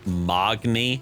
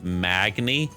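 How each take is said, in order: First: The first vowel sounds like 'aw'. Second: The first vowel sounds like 'ah'. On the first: It is a deliberate mispronunciation to provoke commenters. "I say the word Mogni" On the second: It is the name's standard pronunciation. "instead of Magni"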